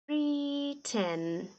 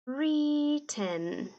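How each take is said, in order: Both takes have the same delivery.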